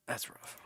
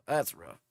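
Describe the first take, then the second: First: Whispered repeat to himself. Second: Said in the usual way. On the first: Real, not acted. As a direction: breathe it out in a whisper.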